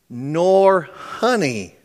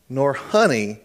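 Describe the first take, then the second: First: "nor honey" drawn out slowly, each word weighted; slow stressed repeat. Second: Said in the usual way. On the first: Shown as a demonstration. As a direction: linger on "nor honey" to make it sink in.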